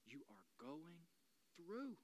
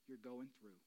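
First: "you are going", a pause, then "through" lifted; pause before THROUGH. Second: Said in the usual way. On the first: Shown as a demonstration. Preacher promising they will come through, "through" set apart. Reworks the phrase to mean coming through.

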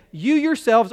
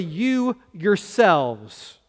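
First: Said in the usual way. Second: "you yourselves" drawn out very slowly, "you" leaned on; emphatic "you yourselves". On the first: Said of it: "we would say". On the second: Shown as a demonstration. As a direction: stretch out "you yourselves", pressing on "you". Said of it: "It says, literally".

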